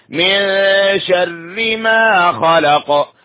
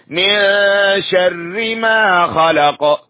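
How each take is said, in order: No difference in how they are said.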